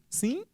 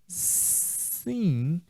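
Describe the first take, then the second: First: It is said like a question asking to repeat. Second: It is said hesitantly, without firmness. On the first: The question was not heard and should be repeated. "Ele está pedindo que a pessoa repita. Sim é como se fosse um, pois não?" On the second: The answer is probably not really yes. "Essa entonação não traz segurança, não traz firmeza, não traz certeza"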